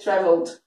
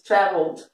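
First: The stress is on the last syllable. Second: The stress is on the first syllable. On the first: "Já na britânica, ele vai dizer traveled" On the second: "no inglês americano, a tônica vai estar no tra e não no vo"

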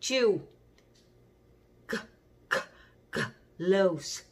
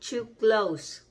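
First: It is said very slowly and drawn out. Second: It is said at a normal, quicker pace. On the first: "Thu Thương nói rất là chậm" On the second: "Nhưng mà chúng ta đọc to close"

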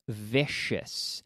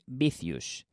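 First: The word begins with a buzzing V sound. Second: The word begins with a B-like sound. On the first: The speaker calls it right. "sino vicious" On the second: The speaker calls it wrong. "No es vicious"

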